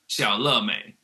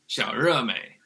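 First: The middle syllable begins with an L sound. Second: The middle syllable begins with an R sound. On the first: This is how it is said in Taiwan. "they say in Taiwan" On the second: This is how it is said in Beijing. "But in Beijing, they would say like"

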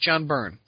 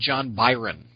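First: The surname is said with one syllable. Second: The surname is said with two syllables. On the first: The speaker calls it right. "so it's John Byrne" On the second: The speaker calls it wrong. "for the longest time I called him John Byron"

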